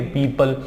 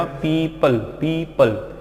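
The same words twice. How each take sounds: First: Said in the usual way. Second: "पीपल" slowly, "pee ... pal"; broken into syllables. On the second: Shown as a demonstration. Teacher showing what the parts make, "पीपल" in two slow syllables. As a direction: leave a gap between "pee" and "pal". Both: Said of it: "यहाँ पर इसको break कर दो".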